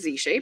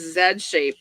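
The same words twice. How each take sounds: First: The letter is said the American way, zee. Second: The letter is said the British way, zed.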